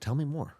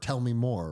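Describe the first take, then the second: First: It sounds sincere and genuinely curious. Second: It sounds sarcastic and mocking. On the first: The speaker truly wants to hear more. The speaker calls it right. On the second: The listener's expertise is being mocked. The speaker calls it wrong. "passive aggressive"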